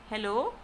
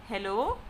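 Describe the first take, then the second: Both takes have the same delivery.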